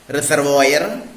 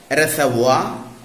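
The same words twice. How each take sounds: First: The word ends in an 'oir' sound with r. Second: The word ends in a plain 'wa' sound. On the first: The speaker calls it wrong. "wrongly pronounced words" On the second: The speaker calls it right. "correctly pronounced as"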